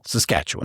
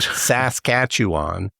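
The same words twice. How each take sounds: First: The stress is on the second syllable only. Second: The stress is on the first two syllables. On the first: This is how people from there say it. The speaker calls it right. "you emphasize just the second syllable" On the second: This is how people from elsewhere say it. The speaker calls it wrong. "they emphasize the first two syllables"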